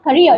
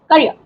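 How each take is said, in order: First: Career stressed on its second syllable; career, stress moved off the first syllable; wrong stress demo. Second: Career stressed on its first syllable. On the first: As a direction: put the weight on the end of career. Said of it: "It is not career". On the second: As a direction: put the weight on the start of career. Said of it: "You get the stress here". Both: Shown as a demonstration.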